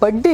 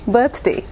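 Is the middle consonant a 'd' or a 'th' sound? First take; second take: d; th. First: It is said like 'budday', with a 'd' sound. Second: It is said as 'birthday', with a 'th' sound. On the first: The speaker calls it wrong. "लेकिन बर्थडे नहीं होता" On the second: The speaker calls it right. "बर्थडे B I R T H D A Y"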